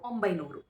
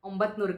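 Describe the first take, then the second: First: The middle syllable is 'bai' with no t. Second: The middle syllable is 'bat' with a t. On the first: The speaker calls it right. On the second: The speaker calls it wrong.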